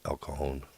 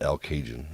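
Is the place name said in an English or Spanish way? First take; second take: Spanish; English. First: The name is said with a Spanish-style pronunciation. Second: The name is said with an English-style pronunciation. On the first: The speaker calls it right. "we pronounced the things correctly. We called it El Cajon" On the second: The speaker calls it wrong. "We didn't call it El Cajun"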